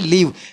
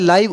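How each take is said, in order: First: The vowel sounds like 'ee'. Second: The vowel sounds like 'eye'. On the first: "लीव ये रहना के संदर्भ में आता है" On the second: "इसको बोला जाता है लाइव"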